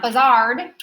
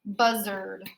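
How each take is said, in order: First: BUZZARD with the stress wrongly on a drawn-out, rising ARD; mispronounced BUZZARD, second syllable like "zard"; wrong pronunciation. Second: BUZZARD with stress on BUZZ and a reduced er in the ending; correct pronunciation. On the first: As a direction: say BUZZARD as buh-ZARD, rhyming with hard. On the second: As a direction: say BUZZARD as BUZ-erd, falling away. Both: Shown as a demonstration. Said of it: "It's not buzzard".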